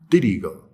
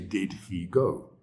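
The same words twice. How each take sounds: First: The words run together in fast connected speech. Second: Each word is pronounced fully and separately. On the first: This is how people say it in conversation. The speaker calls it right. "We say" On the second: This is not how people say it in conversation. The speaker calls it wrong. "We don't say"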